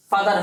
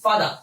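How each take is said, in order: First: "ফাদার" with a sounded final R; the rejected "ফাদার", R kept at the end; R pronounced. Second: "ফাদার" as "faada", no final R; British "ফাদার" with silent R; British pronunciation. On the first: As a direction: close "ফাদার" on an R. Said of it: "ফাদার হবে না". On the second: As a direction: end "ফাদার" on an open vowel. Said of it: "এই ক্ষেত্রে কিন্তু হবে কি". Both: Shown as a demonstration.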